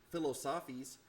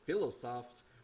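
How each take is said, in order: First: The word is said like English "philosophies." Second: The word is said as the French term. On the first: The speaker calls it wrong. "as the kids in my class would say" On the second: The speaker calls it right. "that's a French word"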